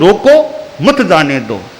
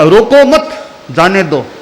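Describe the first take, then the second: First: There is a pause after 'roko'. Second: There is a pause after 'mat'.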